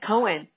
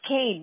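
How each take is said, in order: First: The name is pronounced like Cohen. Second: The name is pronounced like Kane. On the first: The speaker calls it wrong. "I would have said Cohen" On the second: The speaker calls it right. "but it's Kane, right?"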